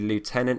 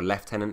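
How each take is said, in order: First: It is said with an American pronunciation. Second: It is said with a British pronunciation.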